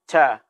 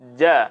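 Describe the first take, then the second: First: The first consonant is voiceless with breath flowing. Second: The first consonant is voiced and firmly closed. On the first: The speaker calls it wrong. "bukan ca" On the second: The speaker calls it right. "Jadi dibaca ja"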